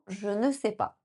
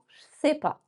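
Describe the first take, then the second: First: Every syllable is said in full, including ne. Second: Je and sais merge, leaving two syllables.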